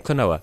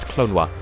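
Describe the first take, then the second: First: The second O is a full vowel. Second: The second O sounds like a W. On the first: The speaker calls it wrong. "in English, people say Klonoa" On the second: The speaker calls it right. "the second O is unvoiced, so it's actually pronounced Clonwa"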